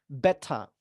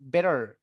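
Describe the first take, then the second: First: The t is crisp, and no final r. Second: The t is a soft d-like flap. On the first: "diletupkan dan R-nya dihilangkan ... itu kedengaran British" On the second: "T-nya diganti D aja ... ini bakal kedengaran American"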